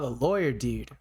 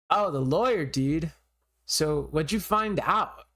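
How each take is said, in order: First: It is said in a plain voice. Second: It is said in a surfer voice.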